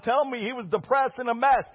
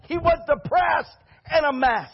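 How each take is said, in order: First: Said in the usual way. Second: Firm shouted affirmation; emphatic reply. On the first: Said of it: "Well, Pastor". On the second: Real, not acted. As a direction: insist on it, hitting "was".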